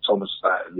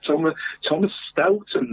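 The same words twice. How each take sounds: First: Staten said with a short a, STAT-en; corrected name. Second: Stolten said with a long o, STOHL-ten; misread name. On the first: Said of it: "A for an E there". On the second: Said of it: "Is that Staten or Stolten?". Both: Real, not acted.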